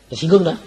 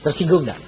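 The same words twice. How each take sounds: First: Insistent challenge, "Tersinggung" leaned on; louder repeat, Tersinggung punched. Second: Said in the usual way. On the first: Shown as a demonstration. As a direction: press harder on "Tersinggung", louder.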